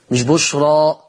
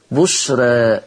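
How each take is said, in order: First: بشرى with a plain open final a, the rejected way; wrong open a. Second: بشرى ending in a vowel tilted toward e, not a full a; taqlil. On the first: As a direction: say بشرى with a full a to show what not to do. (بشرى بالفتح الخالص، النطق الخطأ) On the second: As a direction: say بشرى the Warsh way, final ألف half-leaning to e. (بشرى بالتقليل لورش) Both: Shown as a demonstration.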